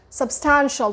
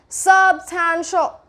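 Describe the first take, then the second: First: The stress is on the second syllable. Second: The stress is not on the second syllable. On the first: The speaker calls it right. "It's that ta, ah, ah, that vowel sound" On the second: The speaker calls it wrong. "Now you can't be like substantial"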